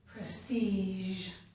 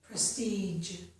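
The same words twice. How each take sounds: First: The final consonant is a soft zh sound. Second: The final consonant is a j sound with d. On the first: "these words have zh at the end of the word" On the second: "I'll pronounce them now with the second sound"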